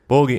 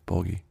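First: The word is said loudly. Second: The word is said fairly quietly.

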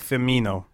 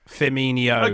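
First: The n is a plain, hard n sound. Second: The n is a soft ny sound. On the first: The speaker calls it right. "Roberto Firmino" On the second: The speaker calls it wrong.

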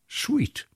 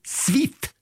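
First: The s sound is made further back. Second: The s sound is made further forward. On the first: "engelsk, for eksempel" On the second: "med norsk uttale så vil det bli svit"

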